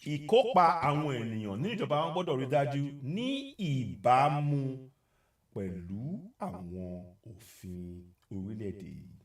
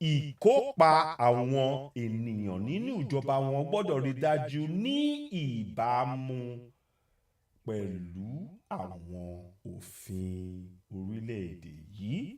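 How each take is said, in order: First: It is said at normal speed. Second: It is said slowly.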